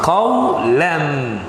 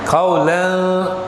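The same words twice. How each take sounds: First: The final n sound is pronounced clearly. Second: The final n sound is blurred, not clear. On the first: The speaker calls it right. "We pronounce qawlan" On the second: The speaker calls it wrong. "We don't say qawlan. It is wrong"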